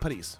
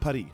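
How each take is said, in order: First: The final S is pronounced. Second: The final S is silent. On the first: This is the usual local way to say it. The speaker calls it right. "man säger ju Paris" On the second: This imitates the original-language pronunciation. The speaker calls it wrong. "Man säger inte Paris"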